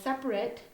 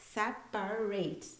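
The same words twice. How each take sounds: First: The word is said in its adjective form. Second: The word is said in its verb form. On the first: It means different or distinct. "separate is an adjective" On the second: It means to divide something. "separate is a verb"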